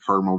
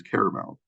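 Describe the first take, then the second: First: "caramel" said in two syllables, CAR-mul. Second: "caramel" said in three syllables, CARE-uh-mel. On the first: Teacher showing students one accent's version, "caramel" as two-syllable CAR-mul. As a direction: say "caramel" as CAR-mul, dropping the middle vowel. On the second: Teacher contrasting another accent's version, "caramel" as three-syllable CARE-uh-mel. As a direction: say "caramel" as CARE-uh-mel, keeping the middle vowel. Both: Shown as a demonstration. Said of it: "different ways to pronounce the same word".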